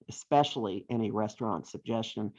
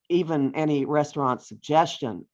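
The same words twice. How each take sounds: First: Softer, laughing, stress on especially; amused correction. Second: Said in the usual way. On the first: Shown as a demonstration. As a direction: slip a chuckle into especially.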